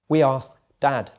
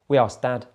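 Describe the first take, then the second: First: It is said a little more slowly. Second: It is said at normal speed. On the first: "the second time a little bit slower" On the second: "then at normal speed again"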